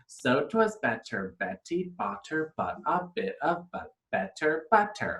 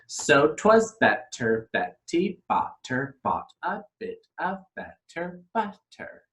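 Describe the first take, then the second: First: It is said at a faster pace. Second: It is said at a slower pace.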